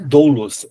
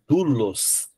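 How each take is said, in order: First: The first vowel is a two-part diphthong. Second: The first vowel is a single u sound. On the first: The speaker calls it wrong. "Então não é doulos" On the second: The speaker calls it right. "é dulos"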